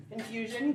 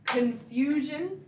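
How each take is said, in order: First: Said in the usual way. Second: Very slow, questioning rise; puzzled, stretched-out echo; mock confusion. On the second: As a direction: draw it out as if baffled.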